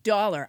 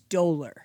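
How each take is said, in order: First: The word is pronounced like 'dollar'. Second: The word is pronounced like 'dolor'. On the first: The speaker calls it wrong. "I think I might have pronounced, I said dollar" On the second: The speaker calls it right. "I believe it's dolor"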